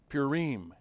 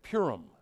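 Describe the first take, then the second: First: The word is pronounced in a Hebrew way. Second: The word is pronounced in an English way.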